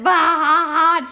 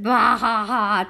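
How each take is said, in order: First: Loud drawn-out bah ha ha; mock laugh. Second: Bah ha ha read out calmly; just read the laugh, no performance; flat read laugh. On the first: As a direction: read the laugh out big and slow. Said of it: "Suzanne said". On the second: Retold or imitated. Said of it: "She said".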